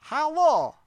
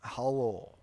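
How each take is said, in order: First: Loud, high Borat-like Russian hello; attempted Russian accent. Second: Toned-down Russian hello; lowered Russian accent. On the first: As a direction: call it out in hammed-up Russian. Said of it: "let me try this again". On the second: Acted. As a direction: bring the mock-Russian greeting down. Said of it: "we have to go down".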